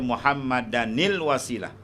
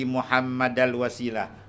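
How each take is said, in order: First: An n sound with a linking i is added. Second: The n sound is dropped before the article. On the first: The speaker calls it right. "Dia kena baca Muhammadanil wasilah" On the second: The speaker calls it wrong. "itu tak betul"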